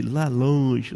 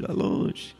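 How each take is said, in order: First: Said in the usual way. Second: Breathy whisper, as if far away; whispered echo. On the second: Shown as a demonstration. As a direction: let the words fade into a whisper. Echoing far across the sea.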